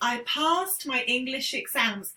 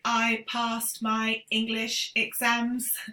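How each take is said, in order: First: The voice moves up and down naturally. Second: The voice is flat and robotic. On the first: The speaker calls it right. "just try and listen to my voice" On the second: The speaker calls it wrong. "they sound tend to sound quite robotic. ... I'm exaggerating"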